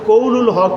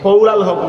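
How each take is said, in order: First: The vowel after 'qawl' is 'u'. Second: The vowel after 'qawl' is 'a'. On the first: The word is in the nominative case. The speaker calls it right. "এটা বিল Rafael" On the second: The word is in the accusative case. The speaker calls it wrong. "নয়"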